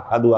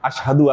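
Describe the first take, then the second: First: The word is said without the 'sh' sound. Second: The word is said with a clear 'sh' sound. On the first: The speaker calls it wrong. "আহাদু আল্লাহ বলে ফেলে" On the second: The speaker calls it right. "শিন উচ্চারণ করতে গেলে আশহাদু আল্লাহকে বলতে গেলে"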